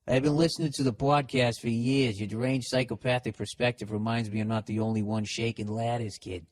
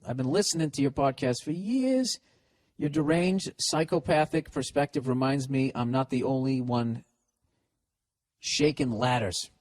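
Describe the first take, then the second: First: Put-on listener's letter re-read in a Boston accent. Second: Said in the usual way. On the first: Host testing if the letter sounds Bostonian, Boston accent. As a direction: read it run-on with a Boston twang. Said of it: "even if the accent". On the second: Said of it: "Is this guy from Boston?".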